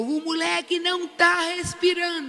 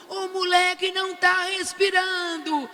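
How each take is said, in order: First: Mild mock yell, pitched up; retold yell. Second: Higher, slower drawn-out alarmed cry; retold yell. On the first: Grandmother to the staff, a mild retold yell. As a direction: call out the alarm, half-raised. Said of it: "Eu gritei de novo". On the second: Grandmother to the staff, slow high alarmed cry. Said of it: "eu gritava".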